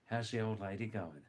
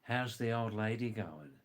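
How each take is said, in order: First: Put-on "How's the old lady going" linked in Aussie style; Australian accent. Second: Put-on "How's the old lady going" with each word fully sounded; clear translation. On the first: Teacher showing slang for the wife, "How's the old lady going" in linked Australian. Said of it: "fifty percent speak like that". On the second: Teacher translating Aussie slang, "How's the old lady going" clearly enunciated. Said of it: "I'll translate that". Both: Shown as a demonstration.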